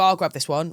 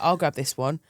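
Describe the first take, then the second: First: It sounds like a casual, genuine offer. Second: It sounds like a scheming, calculated offer.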